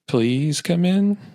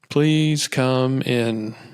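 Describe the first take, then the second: First: It is said fearfully, to someone feared. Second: It is said as a king would.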